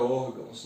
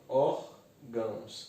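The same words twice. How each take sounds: First: Said in the usual way. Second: ÓRGÃOS slowly split, ór-gãos; syllable by syllable. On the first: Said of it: "nós já analisamos ela". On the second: Shown as a demonstration. Teacher recalling the analysed word, ÓRGÃOS in two slow syllables. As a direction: say ÓRGÃOS with a gap after ÓR. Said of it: "Separar as sílabas".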